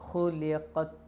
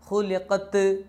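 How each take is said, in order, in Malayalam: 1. അവസാന t ഒരു നേരിയ ശ്വാസമാണ്. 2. അവസാന t ഉച്ചത്തിലും മുഴങ്ങിയും കേൾക്കുന്നു. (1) "ചെറിയൊരു കാറ്റ്" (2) "ത് എന്ന് കേൾക്കാൻ പാടില്ല, മുഴങ്ങാൻ പാടില്ല"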